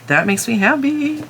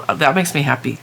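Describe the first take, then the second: First: Higher happy squeal. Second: Said in the usual way. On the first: Real, not acted. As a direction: lift "That makes me happy" up high, in a sing-song voice.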